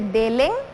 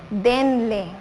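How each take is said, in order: First: The l sound comes before the n sound. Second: The n sound comes before the l sound. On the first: The speaker calls it wrong. "no se dice delen" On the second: The speaker calls it right. "se dice denle"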